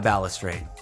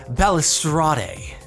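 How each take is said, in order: First: The word is said in a plain, ordinary way. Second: The word is said in a fancy, posh way.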